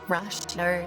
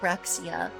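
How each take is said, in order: First: It is said with a Chinese-style pronunciation. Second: It is said with a Western-style pronunciation. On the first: "inspired by like Chinese pronunciation, be like Rashia" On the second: "the Western pronunciation would be like Raxia"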